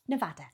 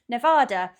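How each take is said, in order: First: It is said with an American pronunciation. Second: It is said with a British pronunciation. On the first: The speaker calls it right. "There we go" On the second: The speaker calls it wrong. "I say Nevada like an English person"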